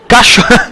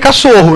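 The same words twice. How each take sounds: First: The middle consonant is a 'sh' sound. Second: The middle consonant is an 's' sound.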